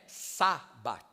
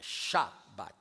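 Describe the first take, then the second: First: The word begins with a plain s sound. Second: The word begins with an sh sound. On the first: The speaker calls it wrong. "Não é Sabat" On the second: The speaker calls it right. "é Shabat"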